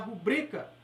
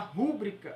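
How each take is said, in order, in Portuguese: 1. A tônica está na segunda sílaba. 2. A tônica está na primeira sílaba. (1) "Se falar rubrica, ela é uma paroxítona" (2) "se falar rúbrica, ela é uma proparoxítona"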